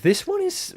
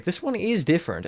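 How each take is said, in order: First: Voice crack. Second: Said in the usual way. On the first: Real, not acted. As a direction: voice cracking mid-sentence. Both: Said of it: "voice crack".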